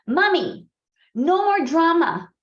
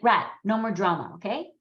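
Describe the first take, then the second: First: Loud, high imitation of a child calling; son calling out. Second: Imitated no-nonsense remark, usual pitch; Saloni. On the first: Son in the bathtub calls to his mom, loud imitated shout. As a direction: call out for Mommy, high and drawn out. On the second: Friend imagined in the room, imitated no-bullshit manner. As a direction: say it firmly, with a questioning okay. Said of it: "that's how she spoke".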